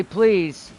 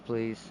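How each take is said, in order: First: "Please" said clearly and a bit louder, falling at the end. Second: Please said softly, trailing down low; a gentle little modelled please. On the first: Dad teaching his child to ask nicely, a clear please. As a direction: model a proper "Please" for the child. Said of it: "Make sure you say". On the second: Dad showing his child how to ask Mama, softly. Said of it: "take that downstairs to Mama and say". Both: Shown as a demonstration.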